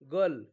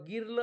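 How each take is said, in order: First: The vowel sounds like 'er' before the r. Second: The vowel sounds like 'i' before the r. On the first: The speaker calls it right. "आयचा उच्चार अ होतो" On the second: The speaker calls it wrong. "गिल किंवा गिर्ल असं म्हणतो का? नाही"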